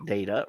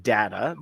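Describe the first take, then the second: First: Data said DAY-tuh; long A in data. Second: Data said DAT-uh; short A in data. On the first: Host repeats both pronunciations while reading, data as DAY-tuh. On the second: Host repeats both pronunciations while reading, data as DAT-uh. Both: Shown as a demonstration. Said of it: "that's why I'm doing it twice".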